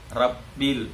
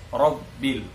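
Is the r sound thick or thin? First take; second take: thin; thick. First: The r is pronounced thin and light. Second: The r is pronounced thick and heavy. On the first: The speaker calls it wrong. "dibaca tipis semua" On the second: The speaker calls it right. "padahal harus rabbil"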